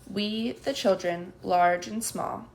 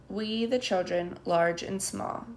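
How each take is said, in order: First: Slow chanted recital, each word weighted; chanted pledge. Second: Chanted, slow sing-song recital; chanted, repeat the oath slowly in unison; chanted pledge. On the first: Children reciting the puppet pledge in slow chant. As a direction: chant it like a class oath. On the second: Children repeating the pledge after the puppeteer, chanted. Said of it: "say the children". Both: A narrator's reading.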